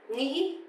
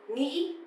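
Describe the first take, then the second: The two takes are said the same way.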